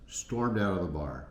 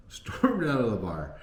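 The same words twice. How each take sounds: First: Said in the usual way. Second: Laughing the words out, higher and louder; laughing repeat. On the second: Real, not acted. Laughing as he repeats that she stormed out. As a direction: chuckle through the repeat.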